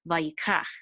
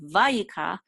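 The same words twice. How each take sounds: First: The stress falls on the last syllable. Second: The stress falls before the last syllable. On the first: The speaker calls it right. "The accent is going to be in the last syllable" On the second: The speaker calls it wrong. "it's not vayikach"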